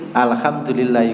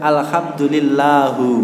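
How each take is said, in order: First: The word ends with an i vowel. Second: The word ends with a u vowel. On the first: The speaker calls it right. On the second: The speaker calls it wrong.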